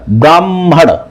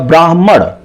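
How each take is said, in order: First: The h sound comes after the m. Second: The h sound comes before the m. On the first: This is how people commonly say it. The speaker calls it wrong. "ब्राह्मण ऐसे बोलते हैं" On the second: This matches how the word is written. The speaker calls it right. "सही उच्चारण क्या होगा, ब्राह्मण, यानी हा पहले आया"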